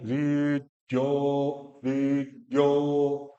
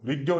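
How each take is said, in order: First: ऋद्यो very slow with half ड and a long ओ; slow, drawn out. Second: ऋद्यो said quickly with a clipped ending; the rushed wrong ऋद्यो; wrong half d. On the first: Teacher models ऋद्यो slowly for the student. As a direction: chant ऋद्यो slowly, the ओ held. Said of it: "ड आधा है". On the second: Teacher shows the wrong clipped ऋद्यो. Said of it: "ऋद्यो नहीं". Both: Shown as a demonstration.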